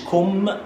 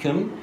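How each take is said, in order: First: The vowel is a full, clear O. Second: The vowel is cut short and very light. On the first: The speaker calls it wrong. "بلاش تقول إن إنجليش كم" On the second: The speaker calls it right. "حاول تخطف على قد ما تقدر الـ O أو تقولها خفيفة خالص"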